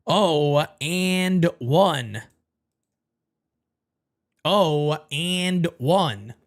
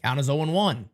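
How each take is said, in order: First: Slow drawn-out count. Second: Said in the usual way. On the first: Real, not acted. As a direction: stretch each word, very slow. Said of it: "drawn-out repeat". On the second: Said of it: "count repeated slowly".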